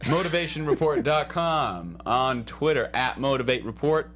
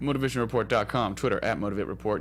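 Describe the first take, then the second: First: It is said more slowly. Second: It is said at a normal pace.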